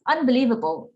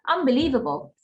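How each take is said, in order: First: Said fast with the n turning into m. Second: The same.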